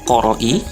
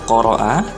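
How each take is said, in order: First: The word ends in an i vowel. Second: The word ends in an a vowel. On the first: The speaker calls it wrong. "tidak boleh dibaca qoro'i" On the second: The speaker calls it right. "ini harus dibaca qoro'a"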